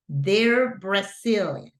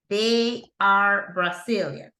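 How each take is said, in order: First: They and are merge into one word. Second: They and are are said as two separate words. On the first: The speaker calls it right. "la pronunciación cambia y hago una sola palabra" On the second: The speaker calls it wrong. "Tengo dos palabras, they y tengo la palabra are"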